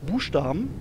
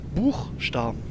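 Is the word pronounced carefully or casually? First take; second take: casually; carefully. First: The word is spoken casually with reduced sounds. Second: Every letter of the word is clearly pronounced. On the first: "Da sagen die auch nicht Buchstaben" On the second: "da lesen die ja wirklich jedes Wort mit jedem Buchstaben"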